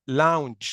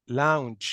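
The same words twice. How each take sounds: Both takes have the same delivery.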